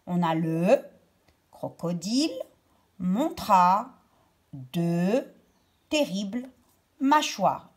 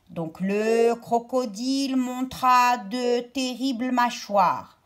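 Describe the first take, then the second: First: Each word of "le crocodile montra de terribles mâchoires" set apart by a pause. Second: Said in the usual way. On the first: Shown as a demonstration. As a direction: separate every word with a pause. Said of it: "Je sépare les mots et je la trouve ici". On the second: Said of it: "Je sépare les mots".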